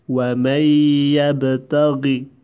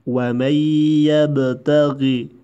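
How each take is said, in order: No difference in how they are said.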